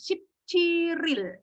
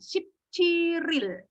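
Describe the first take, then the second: First: Chil and il run together as chiril. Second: The same.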